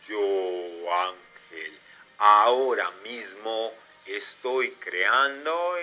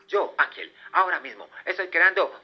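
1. La oración se dice lentamente. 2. La oración se dice muy rápidamente. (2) "uno muchísimo más rápido"

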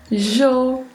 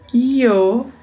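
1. A palavra começa com um som de zh. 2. A palavra começa com um som de y. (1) "um som de J" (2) "um som de I"

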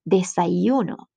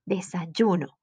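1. El sonido 'y' es suave y delicado. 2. El sonido 'y' es fuerte y firme. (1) "more soft" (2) "like stronger"

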